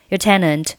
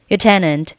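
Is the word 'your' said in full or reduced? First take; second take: reduced; reduced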